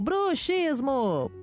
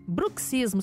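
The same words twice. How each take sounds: First: The x is said as a 'sh' sound. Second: The x is said as a 'ks' sound. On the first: The speaker calls it wrong. "Aí você falou, bruxismo!" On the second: The speaker calls it right. "a pronúncia técnica considerada ali nos dicionários, correta"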